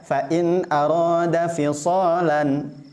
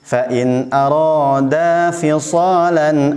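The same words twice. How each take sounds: First: The vowel in arada is cut short. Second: The vowel in arada is held long. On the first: The speaker calls it wrong. "biasanya suka dibaca" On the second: The speaker calls it right. "Arada harusnya seperti itu"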